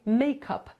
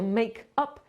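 First: The two words are linked into one. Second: The two words are said separately. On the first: The speaker calls it right. "tylko się mówi make up. To się łączy w jedno" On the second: The speaker calls it wrong. "nie mówi się make up"

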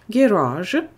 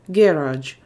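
First: The stress is on the second syllable. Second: The stress is on the first syllable. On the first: This is the American pronunciation. "Американский вариант. ... американский вариант на второй слог garage" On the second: This is the British pronunciation. "Британский вариант. ... британский вариант на первый слог уйдет ударение"

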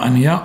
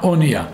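First: The first vowel sounds like 'a'. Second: The first vowel sounds like 'o'. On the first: The speaker calls it wrong. "לא אומרים אונייה" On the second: The speaker calls it right. "קוראים את זה כמו חולם"

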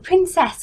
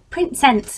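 First: The word is pronounced in the standard way. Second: The word is pronounced like a small child.

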